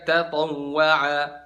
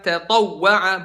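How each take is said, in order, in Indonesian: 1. Huruf w yang digandakan dilewati dengan meluncur tanpa sentakan. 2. Huruf w yang digandakan mendapat sentakan singkat yang ditekan.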